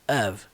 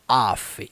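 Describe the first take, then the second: First: The word ends with a v sound. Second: The word ends with an f sound. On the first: The speaker calls it right. "Somzinho do V" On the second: The speaker calls it wrong. "Não é off"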